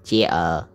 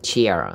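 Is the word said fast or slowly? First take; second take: slowly; fast. First: The word is said slowly and drawn out. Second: The word is said quickly. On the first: "đọc chậm chair" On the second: "Đọc nhanh là chair"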